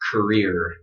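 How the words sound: It is said in an American accent, with R.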